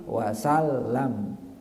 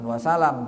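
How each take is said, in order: First: The l sound is held long and doubled. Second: The l sound is short and single. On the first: The speaker calls it right. "tapi wasallam" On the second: The speaker calls it wrong. "Bukan wasalam"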